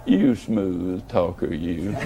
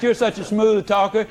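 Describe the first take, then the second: First: Much lower, slow, smiling tease; lower, slower, smiling "You smooth talker, you"; teasing smile. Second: Said in the usual way. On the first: Retold or imitated. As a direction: purr it low and slow with a grin. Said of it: "you kinda smile and say".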